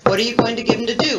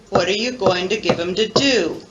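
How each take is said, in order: First: It is said at a faster pace. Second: It is said at a slower pace.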